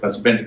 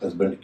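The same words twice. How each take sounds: First: The consonant before b is a hissing s. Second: The consonant before b is a buzzing z. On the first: The speaker calls it wrong. "कई लोग इसे हस्बैंड कहते हैं" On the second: The speaker calls it right. "वहां पर हस्बैंड क्यों होता है"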